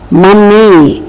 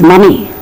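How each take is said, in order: First: The middle M sound is long and doubled. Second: The middle M sound is short and light. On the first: The speaker calls it wrong. "We are not supposed to say money" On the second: The speaker calls it right. "it is money"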